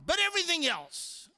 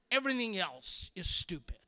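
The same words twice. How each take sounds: First: High, petulant mock outburst; hammed-up exasperation, high and forceful; exasperated outburst. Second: Dropped, sulky muttered verdict; acted sulk, voice falling away; sullen grumble. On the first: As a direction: burst back into the rant, pitched up. Acted bad-attitude rant resumes. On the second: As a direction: let the rant sink into a grumble. Rant drops to sullen repeat.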